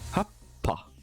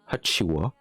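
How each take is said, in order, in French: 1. Le mot se termine par un son p doublé. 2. Le mot se termine par un son wa doux. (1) "ça va garder, pour certains, le bas et le pas" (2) "c'est la première avec wa"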